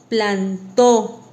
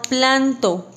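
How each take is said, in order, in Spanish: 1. El acento está en la última sílaba. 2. El acento está en la primera sílaba. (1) "plantó con tilde en la O" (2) "si yo no le pongo tilde, suena a planto"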